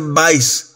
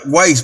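First: The name begins with a V sound. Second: The name begins with a W sound. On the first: The speaker calls it right. "pero supuestamente se pronuncia Weisz" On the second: The speaker calls it wrong. "Yo antes pensaba que se pronunciaba Weisz"

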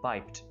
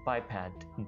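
First: The second syllable has a reduced, clipped vowel. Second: The second syllable has a full, open vowel. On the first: The speaker calls it wrong. "बाइप्ड यानी गलत pronounce करते हैं" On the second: The speaker calls it right. "लेकिन इसकी English है बाइपैड"

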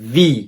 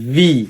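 First: It begins with a v sound. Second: The same.

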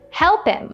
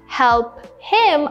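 First: The two words are linked together, with the h dropped. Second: The two words are said separately, with the h sounded. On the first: "I said help him" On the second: "Instead of saying help him"

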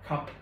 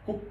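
First: It is pronounced the English way. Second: It is pronounced the French way. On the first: "Bên tiếng Anh nó sẽ là cup" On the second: "Nó cũng từ này luôn"

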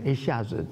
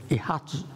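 First: The middle syllable is pronounced 'xia' in standard Mandarin. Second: The middle syllable is pronounced 'ha' in a regional accent. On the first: "他每次讲一下子" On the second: "都讲一哈子……这是他的口音"

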